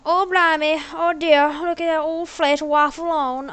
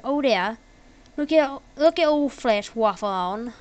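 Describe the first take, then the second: First: Exaggerated amateur Australian accent; bad Australian accent. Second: Lightly put-on Australian, near usual pitch; half-hearted Australian impression; attempted Australian accent. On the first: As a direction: ham up a shaky attempt at an Aussie accent. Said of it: "I don't know Australian accent". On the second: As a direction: try a mild Aussie accent. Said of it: "an, an Australian accent".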